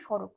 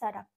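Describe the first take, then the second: First: The vowels are said with a rounded o sound. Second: The vowels are said with an open a sound. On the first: This is the Bengali pronunciation. "এটা বাংলায় আমরা বললাম সড়ক" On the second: This is the Hindi pronunciation. "অ উচ্চারণ গুলো আমরা অ উচ্চারণ করি না, ওটাকে উম, আকার করে দিই"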